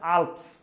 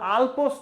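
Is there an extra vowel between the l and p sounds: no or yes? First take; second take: no; yes. First: The l and p are joined without a vowel. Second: An extra vowel is heard between l and p. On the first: The speaker calls it right. "এটা হচ্ছে আল্পস" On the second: The speaker calls it wrong. "এটা আলপস না"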